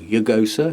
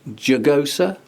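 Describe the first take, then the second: First: It begins with a Y sound. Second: It begins with an English J sound.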